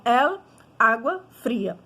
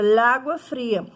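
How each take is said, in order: First: EL set apart, then ÁGUA FRIA; separated words. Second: Slow LÁGUA fria, article melted into the noun; fuse LÁGUA into one word without a gap; run-together words. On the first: Teacher showing how to avoid cacophony, EL kept apart from ÁGUA. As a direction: leave a clear break between EL and ÁGUA. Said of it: "Cacofonia é a junção de duas palavras". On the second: Teacher demonstrating cacophony to students, LÁGUA said as one word. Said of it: "acabaria virando uma única palavra". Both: Shown as a demonstration.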